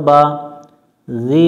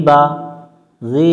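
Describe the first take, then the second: The two takes are said the same way.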